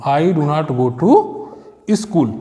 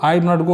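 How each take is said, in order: First: Slow dictation. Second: Said in the usual way. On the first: Shown as a demonstration. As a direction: stretch "I do not go to school" out word by word, very slowly. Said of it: "teacher reads finished sentence slowly". ("I do not go to school" को शब्द-शब्द धीरे-धीरे बोलना) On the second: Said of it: "teacher builds sentence step by step".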